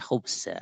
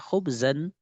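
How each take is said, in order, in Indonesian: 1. Kata ini berakhir dengan vokal biasa. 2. Kata ini berakhir dengan bunyi n. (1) "tidak boleh khubza" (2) "harus tanwin khubzan"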